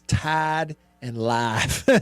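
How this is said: The vowels are slow, drawn-out southern sounds. "the southern uh, s- slow I instead of a sharp I"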